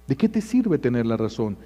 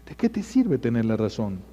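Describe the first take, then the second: No difference in how they are said.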